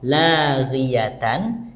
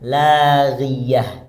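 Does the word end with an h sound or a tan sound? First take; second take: tan sound; h sound. First: The word ends with a tan sound. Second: The word ends with an h sound.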